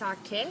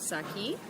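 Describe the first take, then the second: First: The final vowel sounds like "eh". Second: The final vowel sounds like "ee". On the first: The speaker calls it right. "It is pronounced sake" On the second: The speaker calls it wrong. "not saki"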